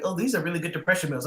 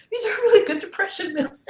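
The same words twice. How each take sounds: First: Said in the usual way. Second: Squeaky, much higher and louder repeat; high, loud playful voice on the repeat; high put-on voice. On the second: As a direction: jump way up in pitch for the punchline. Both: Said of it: "I'm like".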